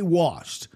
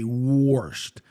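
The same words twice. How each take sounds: First: The word has the speaker's own usual pronunciation. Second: The word has the in-laws' different pronunciation. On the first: "I say washed" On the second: "But my in-laws say washed"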